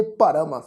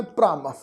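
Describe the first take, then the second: First: ਭਰਮ with a short vowel before a full r. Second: ਭ੍ਰਮ as one syllable, r joined straight onto the first consonant; half-r cluster. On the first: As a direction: separate the first consonant from the r in ਭਰਮ. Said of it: "ਪੂਰਾ ਰਾਰਾ ਅੱਖਰ ਲੱਗਾ". (ਭਰਮ, ਪੂਰਾ ਰਾਰਾ ਬੋਲ ਕੇ) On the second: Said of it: "ਅੱਧਾ ਰਾਰਾ ਲੱਗਾ". (ਭ੍ਰਮ, ਅੱਧਾ ਰਾਰਾ ਜੋੜ ਕੇ) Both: Shown as a demonstration.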